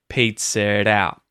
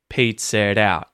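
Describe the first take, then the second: Both takes have the same delivery.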